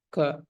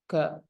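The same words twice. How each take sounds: No difference in how they are said.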